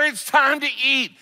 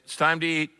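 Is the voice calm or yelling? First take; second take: yelling; calm. First: It is said loudly, as a yell. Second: It is said calmly and politely. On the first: "mom is learning yelling works" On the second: "When I said it politely"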